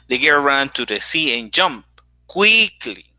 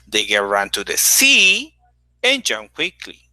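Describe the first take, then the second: First: The word quickly carries the main stress. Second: The word sea carries the main stress. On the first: She jumped quickly, not in another way. "not in another way. She did it quickly" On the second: She went to the sea, not another place. "Not to another place, it was to the sea"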